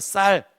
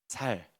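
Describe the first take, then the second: First: The word starts with a tense 's' sound. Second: The word starts with a plain 's' sound. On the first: "쌀 해보세요" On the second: "이 사람 경상도 사람이다"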